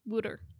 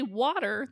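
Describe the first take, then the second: First: The word is said in a Philadelphia accent. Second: The word is said in a standard accent. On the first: "a Philly accent" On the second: "the regular way"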